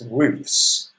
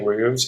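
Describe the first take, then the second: First: The ending is an f sound plus s. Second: The ending is a v sound plus s. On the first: The speaker calls it right. "it's roofs" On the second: The speaker calls it wrong. "we don't say roofs"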